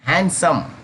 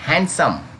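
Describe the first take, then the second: The two takes are said the same way.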